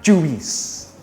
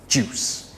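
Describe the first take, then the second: First: The word is said with two syllables. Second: The word is said with one syllable. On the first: The speaker calls it wrong. "It's not juice" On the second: The speaker calls it right. "It's a one-syllable word"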